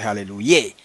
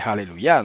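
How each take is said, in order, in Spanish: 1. La palabra termina en sonido 'e'. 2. La palabra termina en sonido 'a'. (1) "no se dice aleluye" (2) "se dice aleluya"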